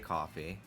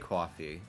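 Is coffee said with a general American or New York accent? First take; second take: general American; New York. First: The vowel is a plain general American one. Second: The vowel is a drawn-out New York 'aw'. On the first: "I say coffee" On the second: "I don't really say coffee"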